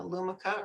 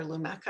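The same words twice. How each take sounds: First: Lumika with a weak middle vowel; first pronunciation. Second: Lumeka with an "eh" in the middle; alternative pronunciation. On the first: Presenter offering one of two ways to say it: Lumika as LOO-muh-kuh. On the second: Presenter offering the other way to say it: Lumeka as loo-MEK-uh. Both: Shown as a demonstration. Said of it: "I've heard it both ways".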